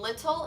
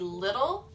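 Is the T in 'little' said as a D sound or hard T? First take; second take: hard T; D sound. First: The T is pronounced as a crisp, hard T. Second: The T is softened into a D-like sound. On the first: "instead of saying little" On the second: "they turn the T's into D's"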